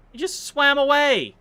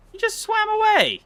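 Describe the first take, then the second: First: Higher, louder outraged cry; can't believe the fish escaped; indignant surprise. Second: Very high, louder squeal of disbelief; shrieking outrage. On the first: Streamer watching a fish escape, loud indignant surprise. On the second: Streamer seeing the fish escape again, high shrieking disbelief. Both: Real, not acted.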